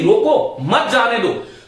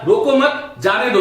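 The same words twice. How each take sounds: First: There is a pause after 'रोको'. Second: There is a pause after 'मत'.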